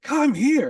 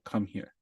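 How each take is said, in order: First: It is said loudly, yelled. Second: It is said quietly.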